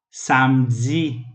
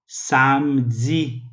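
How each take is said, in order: Both takes have the same delivery.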